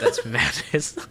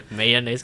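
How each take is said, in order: First: "mayonnaise" as "MAN-aze"; insisted pronunciation. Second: "Mayonnaise" as "MAY-uh-naze", loud and questioning; three-syllable "Mayonnaise", incredulous; rejected pronunciation. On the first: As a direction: laughingly insist on two-syllable "mayonnaise". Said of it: "That, that is different". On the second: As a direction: throw out a long "Mayonnaise" as if wrong. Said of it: "That sounds wrong". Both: Shown as a demonstration.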